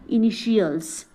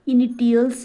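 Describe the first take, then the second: First: The middle consonant is a 'sh' sound. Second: The middle consonant is a 't' sound. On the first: The speaker calls it right. "इसको क्या बोले हम लोग, इनिशियल्स" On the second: The speaker calls it wrong. "इनिटियल्स ना बोल के"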